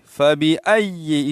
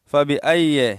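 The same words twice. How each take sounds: First: فَبِأَيِّ with a held, pressed "ay-yi"; firm doubled ya. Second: فَبِأَيِّ quick and loose, ending "ai-ye"; mistaken slack ya. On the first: Shown as a demonstration. Teacher repeating the right way, firm ya. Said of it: "اس طرح پڑھیں گے". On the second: Retold or imitated. Teacher imitating most people's misreading, slack ya. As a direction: slide through فَبِأَيِّ without pressing the y. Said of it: "اس طرح پڑھتے ہیں".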